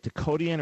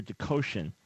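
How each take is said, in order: First: Dakotian with "-tian" as two syllables, tee-an; pronunciation query. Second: Dakotian with "-tian" as one syllable, shun; alternative pronunciation. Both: Shown as a demonstration. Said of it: "is that Dakotian or Dakotian".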